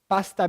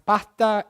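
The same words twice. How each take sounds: First: The s is fully pronounced. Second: The s is aspirated and nearly disappears.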